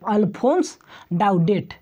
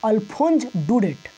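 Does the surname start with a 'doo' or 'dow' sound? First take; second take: dow; doo. First: The surname starts with 'dow' and the first name ends with 's'. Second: The surname starts with 'doo' and the first name ends with 'z'. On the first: The speaker calls it wrong. "ये जो प्रोनाउंसिएशन करेगा स्टूडेंट तो गलत है" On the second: The speaker calls it right. "इसका सही प्रोनाउंसिएशन"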